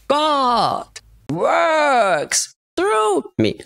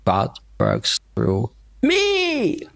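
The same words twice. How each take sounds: First: The stress falls on God and works. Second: The stress falls on the word me.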